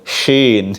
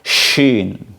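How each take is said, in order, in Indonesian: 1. Diucapkan dengan bibir maju ke depan. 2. Diucapkan tanpa membulatkan bibir. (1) "Bibirnya kayak Donald Bebek gitu" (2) "bukan shin gitu"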